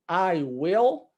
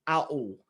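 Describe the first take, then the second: First: Both words are said separately in full. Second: The words are joined into one contracted syllable.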